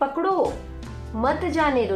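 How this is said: There is a pause after the word pakdo. Catch him; do not let him go. "पकड़ो, फिर यहाँ पर अल्प विराम है"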